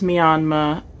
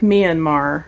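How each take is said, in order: First: The word ends without an R sound. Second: The word ends with an audible R sound. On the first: The speaker calls it right. "it's actually pronounced Myanmar" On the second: The speaker calls it wrong. "It looks like Myanmar, if you're American"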